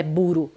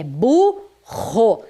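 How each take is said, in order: First: "buro" com R de um toque só; R brando errado. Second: "burro" devagar, separado em bu-rro, RR aspirado; RR forte. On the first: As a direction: diga "buro" rápido, sem força no R. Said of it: "Eu não falo que o nome daquele animal é buro". (erre fraco em "buro") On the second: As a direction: corrija para "burro" com força no RR. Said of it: "A pronúncia exige essa força". (erre forte em "burro") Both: Shown as a demonstration.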